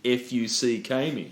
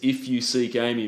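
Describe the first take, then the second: First: It sounds like letters spelled out, then 'me'. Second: It sounds like the ordinary words of the title. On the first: A rude spelled-out word is hidden in it. "it sounds like she's saying" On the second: The innocent title phrase is meant. "she says"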